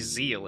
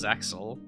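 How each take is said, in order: First: The name is said without a ks sound. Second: The name is said with a ks sound. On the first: This is how the original Japanese says it. The speaker calls it right. "they say Zeal in Japanese" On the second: This is how the English dub says it. The speaker calls it wrong. "they decided to pronounce it as Zexel"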